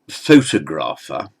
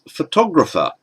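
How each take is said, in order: First: The stress is on the first syllable. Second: The stress is on the second syllable. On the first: The speaker calls it wrong. "We don't say photographer" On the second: The speaker calls it right. "this second O becomes stressed but short"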